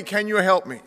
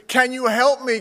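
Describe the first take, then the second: First: Said in the usual way. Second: Higher, pleading cry for help. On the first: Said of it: "dangling man repeats plea". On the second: Acted. Dangling man begging heaven for help, higher and pleading. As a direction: beg for help from the cliff. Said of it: "dangling man begs for help".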